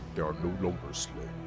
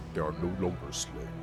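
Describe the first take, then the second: First: It is said in a juicy, deep Abathur voice. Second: The same.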